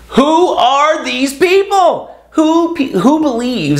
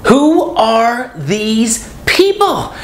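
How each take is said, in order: First: High, slow, drawn-out disbelief; incredulous. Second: High, very slow, stretched-out question; incredulous. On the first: Ranting to viewers about ghosters, high and slow in disbelief. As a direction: ask it like you can't believe they exist. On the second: Asking viewers again about ghosters, high and very slow. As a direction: let the disbelief drag every word. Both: Real, not acted.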